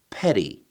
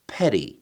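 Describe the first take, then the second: First: The middle consonant is a quick flap. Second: The same.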